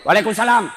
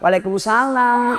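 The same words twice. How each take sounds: First: It is said in a firm, curt tone. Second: It is said in a soft, sweet tone.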